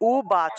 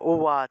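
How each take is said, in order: First: The middle consonant is a b with closed lips. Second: The middle consonant is a w-like sound. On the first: "বাংলায় বললে উবাচ" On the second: "সংস্কৃত উচ্চারণ হবে ... ওয়া"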